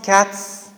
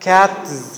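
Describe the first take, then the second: First: The word ends with a voiceless s sound. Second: The word ends with a voiced z sound. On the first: "the Z needs to become S" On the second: "with the Z at the end"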